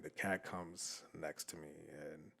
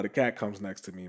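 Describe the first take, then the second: First: Very soft, slow, lowered pitch; slow right down and nearly vanish for suspense; hushed suspense. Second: Said in the usual way. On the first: Real, not acted. Storyteller as the creepy cat closes in, hushed suspense. Repeats line to build suspense.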